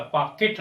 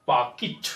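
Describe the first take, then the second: First: "पॉकेट" as "paa-ket"; e in the end of "पॉकेट"; wrong pronunciation. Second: "पॉकेट" as "paa-kit"; short i ending "पॉकेट"; correct pronunciation. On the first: Teacher showing what to avoid, "पॉकेट" as "paa-ket". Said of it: "पॉकेट नहीं". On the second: Teacher giving the right form, "पॉकेट" as "paa-kit". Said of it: "कैट नहीं बोलना". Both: Shown as a demonstration.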